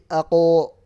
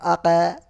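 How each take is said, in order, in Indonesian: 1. Gema setelah konsonan terdengar berat dan gelap. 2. Gema setelah konsonan terdengar ringan dan tipis. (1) "pantulannya tafkhim" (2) "bukan bukan aka"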